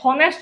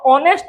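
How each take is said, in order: First: The word begins with an h sound. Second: The word begins with a vowel sound. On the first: The speaker calls it wrong. "हॉनेस्ट नहीं" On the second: The speaker calls it right. "कौन ऑनेस्ट"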